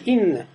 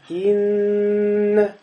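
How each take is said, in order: First: The doubled n is short, without drawn-out nasal. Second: The doubled n is held long with nasal hum. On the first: This is how it is said in everyday speech. "Но здесь не тянется. Просто говоришь «инна»" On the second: This is how it is said when reciting scripture. "И еще тянется"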